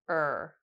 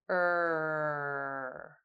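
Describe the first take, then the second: First: The vowel is said briefly at natural length. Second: The vowel is held for about three seconds. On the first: "we'll say it naturally" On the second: "hold the sound for three seconds"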